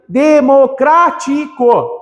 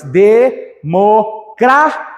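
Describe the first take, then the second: First: Democrático drawn out slowly, each syllable separated; de-mo-crá-ti-co said slowly. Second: Democrático drawn out even slower with a rising end; de-mo-crá-ti-co, very slow and rising; slow syllable by syllable. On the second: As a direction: stretch Democrático out syllable by syllable, ending up. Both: Shown as a demonstration. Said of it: "Separa as sílabas".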